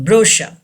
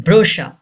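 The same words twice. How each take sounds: The two takes are said the same way.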